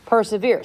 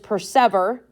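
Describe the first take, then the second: First: The ending rhymes with 'here'. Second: The ending rhymes with 'ever'. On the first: This is the modern pronunciation. "Same word, different pronunciation" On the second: This is the older pronunciation. "Her pronunciation is just persever"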